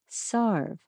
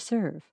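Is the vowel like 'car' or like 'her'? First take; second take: car; her. First: The vowel sounds like 'ar' in car. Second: The vowel sounds like 'er' in her. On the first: This is the older pronunciation. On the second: This is the modern pronunciation.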